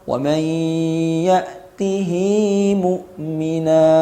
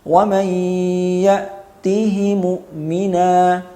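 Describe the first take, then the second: First: The vowel after the h is fully pronounced. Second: The vowel after the h is clipped short. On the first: "Wajah yang kedua, at-tahrik. Tahriknya dengan qasr" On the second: "yang pertama al-ikhtilas"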